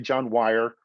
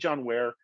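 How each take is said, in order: First: The surname rhymes with 'fire'. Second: The surname rhymes with 'air'. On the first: "people say John Wire, and it's probably the way you pronounce it" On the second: "So I say John Ware"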